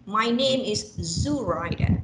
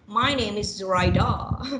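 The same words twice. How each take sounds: First: The stress is on the first syllable. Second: The stress is on the third syllable. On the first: "I put first one" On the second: "and the third one"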